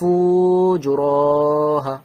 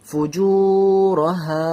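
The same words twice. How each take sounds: First: The first syllable is drawn out, not the second. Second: The second syllable is drawn out, not the first. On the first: The speaker calls it wrong. "ফুয়ে টান নেই টান দিচ্ছি, জুয়ে টান আছে টান দিচ্ছি না" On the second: The speaker calls it right. "এতটা টান"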